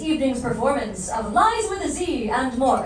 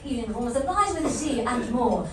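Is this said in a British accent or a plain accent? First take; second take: plain; British. First: It is said in the speaker's ordinary accent. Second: It is said in a put-on British accent.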